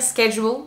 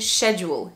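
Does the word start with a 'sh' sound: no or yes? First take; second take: no; yes. First: The word does not start with a 'sh' sound. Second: The word starts with a 'sh' sound. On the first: "J'ai tendance à dire schedule, même si je parle avec British English accent" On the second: "en British English, normalement, c'est schedule, she"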